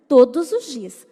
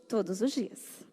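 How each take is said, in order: First: Much louder, insistent; emphatic. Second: Softer and slow, lingering; soft echo. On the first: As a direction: hammer home every day. Repeated with emphasis. (enfático e bem mais alto) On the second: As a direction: let it sink in quietly. Soft repeat. (eco mais suave e lento) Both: Real, not acted.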